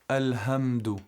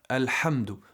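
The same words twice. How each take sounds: First: The h is a soft, breathy sound. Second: The h is a sharp sound from the throat. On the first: The speaker calls it wrong. "Make sure you avoid saying alhamdu" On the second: The speaker calls it right. "coming from the middle part of the throat. Alhamdu, with a sharp sound"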